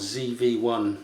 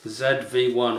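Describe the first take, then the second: First: The letter Z is said the American way. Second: The letter Z is said the non-American way.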